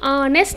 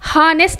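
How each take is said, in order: First: The word starts with a vowel, no h. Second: The word starts with an h sound. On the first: The speaker calls it right. "ఆనెస్ట్ అంటాము" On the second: The speaker calls it wrong. "హానెస్ట్ అనము"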